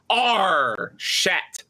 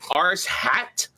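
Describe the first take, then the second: First: The name breaks as 'ar' plus 'shat'. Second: The name breaks as 'ars' plus 'hat'.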